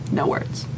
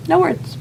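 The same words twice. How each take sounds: First: Unvoiced, breathless wonder; awed whisper. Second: High awed squeal. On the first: Recalling the warehouse full of stunning gowns, whispered in awe. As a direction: breathe it out, lost for words. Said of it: "awestruck hush". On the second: Recalling the warehouse full of gowns, a high delighted squeal. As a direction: jump way up in pitch with delight. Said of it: "awestruck squeal". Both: Real, not acted.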